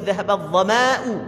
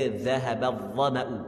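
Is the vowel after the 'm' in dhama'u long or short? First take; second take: long; short. First: The vowel after the m is drawn out long. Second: The vowel after the m is kept short. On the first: The speaker calls it wrong. "panjang ma" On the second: The speaker calls it right. "Kena baca dhahaba dhama'u"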